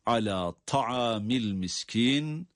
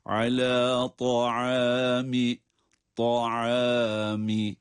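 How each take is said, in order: First: "ta'amil" with a thin, light T sound; slow wrong demo of "ta'amil". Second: "ta'ami" chanted slowly with a heavy, emphatic ط; recited "ta'ami" with long held vowels; correct heavy Ta. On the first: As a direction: say "ta'amil" with a plain t, not the heavy Arabic ط. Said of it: "ta sesiyle okumayalım diye". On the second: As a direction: draw out "ta'ami" on a thick Arabic T. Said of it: "halinde okumamız gerekiyor". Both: Shown as a demonstration.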